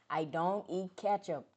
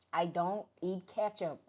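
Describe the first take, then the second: No difference in how they are said.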